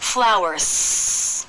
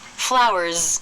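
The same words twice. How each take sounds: First: The word ends in a strong S. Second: The word ends in a strong Z. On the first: "It doesn't have a strong S. ... That's not correct" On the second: "it also doesn't have a strong Z"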